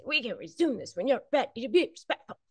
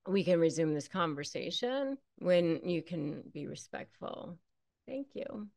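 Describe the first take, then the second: First: Fast and higher, with an edge of irritation; irritated. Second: Quieter, even and unemotional, a soft thank you; calm and polite. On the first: How not to say the boundary line, impatient and fast. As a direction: rattle it off impatiently. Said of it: "You don't have to be like that". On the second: Correct way to tell a disrespectful partner, calm and polite. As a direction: deliver the boundary gently and without heat. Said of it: "You just say". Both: Shown as a demonstration.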